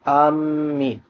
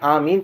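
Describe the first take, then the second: First: The m sound is doubled and held. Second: The m sound is short and single. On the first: The speaker calls it wrong. "मीम पर तशदीद की जाए" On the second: The speaker calls it right. "बगैर तशदीद के"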